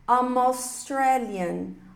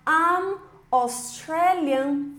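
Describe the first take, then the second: First: The m runs straight into the following vowel. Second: The two words are said separately, with a break. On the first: The speaker calls it right. "você vai linkar aqui o M com A" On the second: The speaker calls it wrong. "ao invés de falar I'm Australian"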